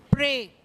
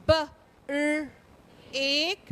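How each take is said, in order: First: Said in the usual way. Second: "B", "R", "ek" one at a time; sounded out. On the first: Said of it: "then the whole word". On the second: Shown as a demonstration. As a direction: split break into "B, R, ek". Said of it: "let's look at some words".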